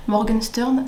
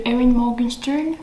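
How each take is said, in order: First: "Morgenstern" said the French way, with a rolled French r; frenchify "Morgenstern" on purpose; French pronunciation. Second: Erin Morgenstern said the English way; English accent. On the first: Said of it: "parce que l'accent français, Morgenstern, ça fait très moche". ("Morgenstern" prononcé à la française, avec le r français) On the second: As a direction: give the name a light English accent. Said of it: "avec l'accent anglais ou l'accent français". ("Erin Morgenstern" à l'anglaise, avec l'accent anglais) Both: Shown as a demonstration.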